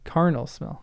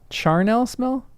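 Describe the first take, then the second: First: The word begins with a hard 'k' sound. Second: The word begins with a soft 'ch' sound. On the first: The speaker calls it right. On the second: The speaker calls it wrong.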